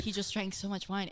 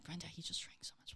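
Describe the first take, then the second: First: Said in the usual way. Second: Hushed whisper to the roommate. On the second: Retold or imitated. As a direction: breathe it out so he can't hear. Telling roommate secretly about drunk guest.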